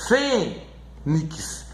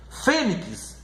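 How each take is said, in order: First: "Fênix" as a long FÊ, pause, soft nix; stressed first syllable. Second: Said in the usual way. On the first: Shown as a demonstration. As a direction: stretch FÊ in "Fênix", then quietly add nix. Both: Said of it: "na sílaba mais forte".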